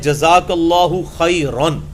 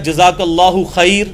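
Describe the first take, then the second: First: The last word ends with an -an sound. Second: The last word ends on a bare r. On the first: The speaker calls it right. "ये है जज़ाकल्लाहु खैरन, रा अलिफ दो ज़बर रन।" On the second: The speaker calls it wrong. "ये भी लफ्ज़ गलत है।"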